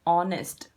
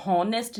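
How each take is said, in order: First: ऑनेस्ट with a silent h, opening on the vowel; ऑनेस्ट spoken clearly without the h. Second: हॉनेस्ट with a breathy h at the start, the wrong way; हॉनेस्ट with the h pronounced; wrong h sound. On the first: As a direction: say ऑनेस्ट as "onest", no h sound. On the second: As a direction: show the mistake, हॉनेस्ट starting with h. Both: Shown as a demonstration. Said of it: "ये हॉनेस्ट नहीं है बेटा".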